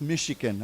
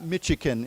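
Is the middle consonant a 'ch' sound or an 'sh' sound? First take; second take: sh; ch. First: The middle consonant is an 'sh' sound. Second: The middle consonant is a 'ch' sound. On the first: The speaker calls it right. "it's a sh sound" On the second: The speaker calls it wrong. "it's not Michigan"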